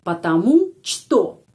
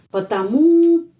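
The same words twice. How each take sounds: First: Потому что slowly, что said as SHTO; slow, careful потому что with что as SHTO; Russian pronunciation. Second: Потому with a loud, high final U, pə-ta-MU; stress on the U. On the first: Teacher shows students что is read as SHTO. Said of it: "что dibaca что". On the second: Teacher stresses the final U of потому for students. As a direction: punch the last syllable of потому. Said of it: "penekanannya pada huruf U". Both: Shown as a demonstration.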